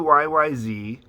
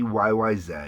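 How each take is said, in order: First: The last letter is said the American way. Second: The last letter is said the Canadian way.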